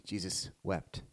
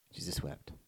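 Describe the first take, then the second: First: Low and hushed, heavy with grief. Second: A breathless whisper, lower and much softer. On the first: Preacher reading the verse to the congregation, hushed and low. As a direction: let it sink, soft and low. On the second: Preacher repeating the verse to a hushed room, whispered. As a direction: barely breathe the words out. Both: Acted.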